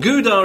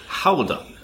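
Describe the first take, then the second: First: The word starts with a hard G sound. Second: The word starts with a throaty, phlegmy H. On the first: The speaker calls it wrong. "Gouda is the common mispronunciation" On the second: The speaker calls it right. "But you need the phlegm"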